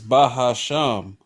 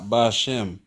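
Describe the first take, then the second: First: The word has three syllables, ba-ha-sham. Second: The word has two syllables, ba-shem. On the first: The speaker calls it right. "Quiet is Bahasham" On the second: The speaker calls it wrong. "not Bashem"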